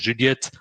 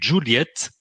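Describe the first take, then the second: First: It is said with a French accent. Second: It is said with an English accent.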